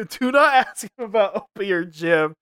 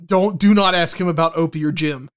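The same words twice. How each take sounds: First: Laughing while repeating the warning; laughing through "Do not ask him"; laughing echo. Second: "do not" stressed firmly. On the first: Retold or imitated. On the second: Real, not acted. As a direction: hit "not" hard in "do not ask him". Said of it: "warning, repeated by other speaker".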